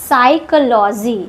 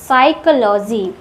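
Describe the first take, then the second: No difference in how they are said.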